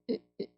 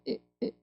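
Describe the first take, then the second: The two takes are said the same way.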